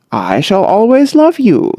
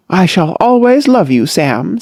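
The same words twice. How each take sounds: First: Lightly cordial and friendly. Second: A touch of defiance at the door; a lightly defiant farewell; mutinous. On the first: Sam answering the daughter, mildly cordial. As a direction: say it pleasantly, with cordial ease. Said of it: "said Sam cordially". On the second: Daughter defying her father at the door, mildly mutinous. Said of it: "pausing mutinously at the door". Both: A narrator's reading.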